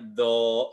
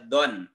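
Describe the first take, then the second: First: The word ends with a plain vowel. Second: The word ends with an n sound. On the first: The speaker calls it right. "dibacanya do seperti itu" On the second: The speaker calls it wrong. "tidak dibaca don"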